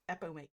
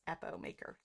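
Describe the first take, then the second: First: The second syllable has an 'ee' sound. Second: The second syllable has an 'oh' sound. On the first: The speaker calls it wrong. "I say Epi" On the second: The speaker calls it right. "but it's Epomaker"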